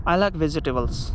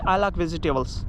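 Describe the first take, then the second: No difference in how they are said.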